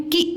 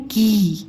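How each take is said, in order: First: की with a short i. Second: की with a long ee; long kee. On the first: Teacher shows the short i, short and quick. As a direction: clip the vowel short, छोटी ई. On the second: Teacher shows the long ee, drawn out. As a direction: stretch the vowel, बड़ी ई. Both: Shown as a demonstration. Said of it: "इसको बोलते हैं की".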